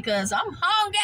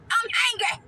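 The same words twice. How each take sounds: First: Said in the usual way. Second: High, moaning I'm hungry with hungry drawn out and falling; pitched-up hungry whimper, hamming it up; whiny hungry.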